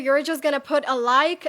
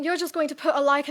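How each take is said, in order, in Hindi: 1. यह अमेरिकन अंग्रेज़ी लहजे में बोला गया है। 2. यह ब्रिटिश अंग्रेज़ी लहजे में बोला गया है। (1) "Yeah, American" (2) "यूके वाली।"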